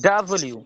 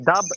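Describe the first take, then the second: First: The name is said with its final syllable. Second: The name is clipped after its first syllable. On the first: The speaker calls it right. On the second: The speaker calls it wrong.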